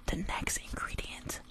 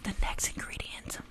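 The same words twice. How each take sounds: The two takes are said the same way.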